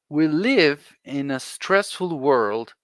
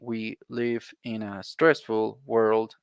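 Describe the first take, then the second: First: The words run together in one flowing phrase. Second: The words are said separately with breaks between them. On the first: The speaker calls it right. "So listen to me" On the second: The speaker calls it wrong. "that that's not natural"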